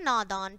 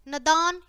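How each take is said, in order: First: नादान said "naadaan", long first "aa"; correct long vowel. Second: नदान said "nadaan", short first "a"; wrong short vowel. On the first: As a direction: stretch the opening "naa" of नादान. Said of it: "और फिर शुद्ध है". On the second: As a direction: start नदान on a quick "na". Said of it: "पहले हमारी अशुद्ध शब्द है". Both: Shown as a demonstration.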